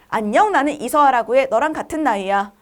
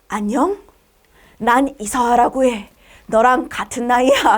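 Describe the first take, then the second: First: The voice sounds cute and childlike. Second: The voice sounds sultry and seductive.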